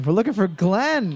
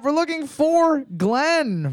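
First: Said in the usual way. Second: Higher and slow, weight on "for" before "Glenn"; game show reveal. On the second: Shown as a demonstration. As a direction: draw out the reveal like a quiz host. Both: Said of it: "Boards up".

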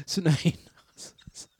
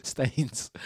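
First: "St Anus" drawn out very slowly, each part separate; mock posh pronunciation. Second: Said in the usual way. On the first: Shown as a demonstration. DJ shows a caller's posh remix of Staines, slow mock-posh. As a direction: stretch out "St Anus" slowly like a snob. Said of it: "if he wants to be posh, he says St Anus". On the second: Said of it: "he says St Anus".

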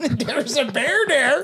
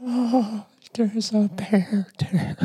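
First: Put-on high, slow, laughing old lady; old woman voice. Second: Put-on high, slow old woman voice. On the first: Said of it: "repeating the old woman line". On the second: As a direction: play a sweet old lady. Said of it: "do an old woman voice".

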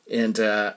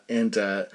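Both takes have the same delivery.

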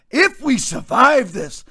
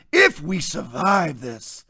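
First: Said in the usual way. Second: Slow, mocking melodrama; mimicking a dramatic pundit, slowly. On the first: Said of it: "he's so dramatic". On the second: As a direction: ham up his overwrought line. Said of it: "he's so dramatic that he puts on".

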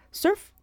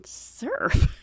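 First: Put-on short, high word in his Greek accent; quick Greek-accented "Surf"; imitated Greek accent. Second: Drawn-out, higher, puzzled "Surf"; baffled questioning "Surf"; puzzled echo. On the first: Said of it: "with his accent, he was saying chef". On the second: Retold or imitated. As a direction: echo "Surf" back in disbelief. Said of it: "And I was thinking".

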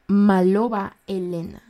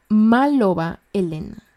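No difference in how they are said.

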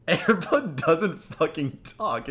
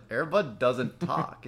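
First: Slow, higher-pitched, exasperated correction; exasperated insistence. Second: Slow, spaced-out correction at usual volume; measured correction. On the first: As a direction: spell it out in mock outrage, word by word. Retells his exasperated second retort. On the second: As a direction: correct them slowly, holding back. First, calmer retort to girlfriend. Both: Retold or imitated.

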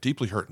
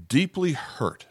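First: Said in the usual way. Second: "Deeply hurt" read higher, leaning on "Deeply"; stressed reading. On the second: Shown as a demonstration. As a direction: lift "Deeply" and let "hurt" fall. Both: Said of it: "Now pause there just for a second".

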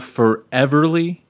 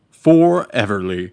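First: Said in the usual way. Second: "Foreverly" said slowly and louder; slow, deliberate "Foreverly"; emphatic repeat. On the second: Real, not acted. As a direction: spell out "Foreverly" by drawing out the first syllable. Album title repeated for clarity.

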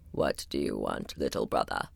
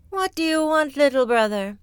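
First: Far lower, softer grumble; very low rumbling wall; grumbling wall. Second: Much higher, airy sighing voice; high wistful cloud. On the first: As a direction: grumble from deep down like stone. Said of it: "grumbled the wall". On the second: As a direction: sigh it out like a drifting cloud. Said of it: "sighed the cloud". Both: Acted.

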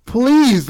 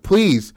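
First: Louder, high-pitched acted plea; desperate pleading. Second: Short high-pitched plea; briefly beg, voice lifted; pleading. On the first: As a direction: beg harder, voice leaping up. Begging escalates in retold scene. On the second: Acted. Acting out a woman begging.

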